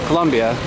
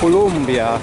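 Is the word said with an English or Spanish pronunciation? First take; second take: English; Spanish. First: It is said with an English pronunciation. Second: It is said with a Spanish pronunciation. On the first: "in English you would say" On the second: "the word in Spanish is"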